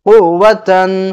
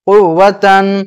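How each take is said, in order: The two takes are said the same way.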